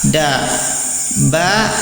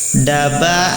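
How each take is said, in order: First: A short pause separates the two syllables. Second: The syllables run together quickly without a pause. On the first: The letters are written separately. "Kalau terpisah dibaca dikasih jeda sedikit" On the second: The letters are connected in writing. "huruf bersambungnya dibaca dibaca juga nyambung atau lebih cepat"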